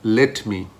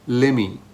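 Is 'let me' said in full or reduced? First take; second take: full; reduced. First: Both words are said separately and clearly. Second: The words run together quickly into one form. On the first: "which is basically saying let me" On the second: "It's very fast"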